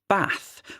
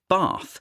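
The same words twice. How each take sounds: First: It has a short a vowel, northern English. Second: It has a long ah vowel, southern English.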